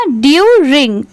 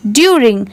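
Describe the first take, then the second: First: ड्यूरिंग as long ड्यू, then रिंग; parts joined. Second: Said in the usual way. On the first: Shown as a demonstration. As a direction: stretch ड्यू before adding रिंग. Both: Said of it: "पूरा मिला देंगे".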